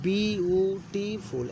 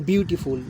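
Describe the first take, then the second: First: বিউটিফুল very slowly in four separate syllables; বিউটিফুল broken into four long, even beats. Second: Said in the usual way. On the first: Shown as a demonstration. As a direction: stretch বিউটিফুল out as bi-u-ti-ful, each beat held level. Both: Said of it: "এই চারটে syllable আছে".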